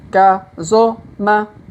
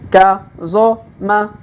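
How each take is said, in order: No difference in how they are said.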